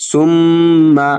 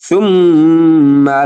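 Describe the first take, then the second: The two takes are said the same way.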